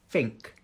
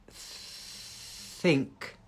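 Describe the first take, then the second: First: The word begins with an F sound. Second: The word begins with a TH sound.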